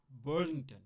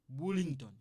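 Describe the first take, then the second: First: Burlington with English "Ber" inside French; English pronunciation. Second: Burlington as loud French "BOO-ling-ton"; French pronunciation. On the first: Teacher mixing English into a French sentence, English Burlington. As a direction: switch to English for Burlington, "BER-ling-tən". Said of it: "French and English a little bit". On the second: Teacher reading the French sentence, French-style Burlington. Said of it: "you kinda mixing". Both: Shown as a demonstration.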